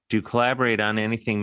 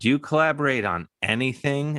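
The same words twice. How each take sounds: First: It is asked as a neutral, informational question. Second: It is asked as an incredulous, teasing question.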